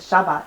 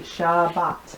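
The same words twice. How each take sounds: First: The word is said quickly as one unit. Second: The word is said slowly, syllable by syllable. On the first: "You can just say it Shabbat if you'd like to" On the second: "to learn it we're going to say it slowly"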